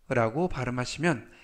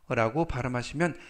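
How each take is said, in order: Both takes have the same delivery.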